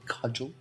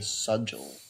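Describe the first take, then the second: First: The word begins with a k sound. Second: The word begins with an s sound. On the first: The speaker calls it right. "That's the word, right?" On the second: The speaker calls it wrong. "that is the one word that I continue to accidentally say wrong. I say sudgel"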